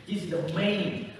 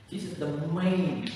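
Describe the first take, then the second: No difference in how they are said.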